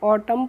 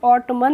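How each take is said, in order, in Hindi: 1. शब्द का अंत m ध्वनि से होता है। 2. शब्द का अंत n ध्वनि से होता है। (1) "ऑटम पढ़ते हैं" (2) "उसको हम ऑटमन नहीं पढ़ते हैं"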